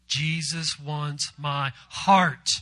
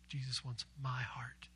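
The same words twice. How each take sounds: First: The stress is on the word heart. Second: The stress is on the word my.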